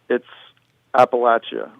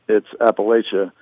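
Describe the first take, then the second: First: It is said the way people below the Mason-Dixon line say it. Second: It is said the way people above the Mason-Dixon line say it.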